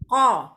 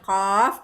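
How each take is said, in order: First: The letter is said as a short syllable. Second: The letter is said as its full name. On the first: The speaker calls it wrong. "bukan ko" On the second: The speaker calls it right. "Bacanya qaf"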